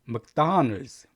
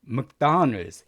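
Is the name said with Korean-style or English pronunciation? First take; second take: English; English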